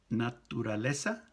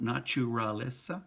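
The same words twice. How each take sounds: First: Naturaleza with a dental tu and tapped r; Spanish naturaleza. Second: Naturaleza with a ch sound, nachuraleza; English-style naturaleza. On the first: Teacher giving the right Spanish naturaleza. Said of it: "not naturaleza". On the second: Teacher showing the wrong naturaleza. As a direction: gringo naturaleza with ch. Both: Shown as a demonstration.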